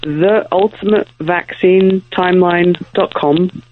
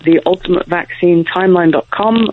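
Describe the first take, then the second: First: It is said more slowly and deliberately. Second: It is said at normal conversational speed.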